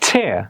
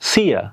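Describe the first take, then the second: First: The word begins with a ch sound. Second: The word begins with an s sound. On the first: The speaker calls it right. "আমরা বলবো ছ চেয়ার" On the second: The speaker calls it wrong. "Not স সিয়া এরকম না"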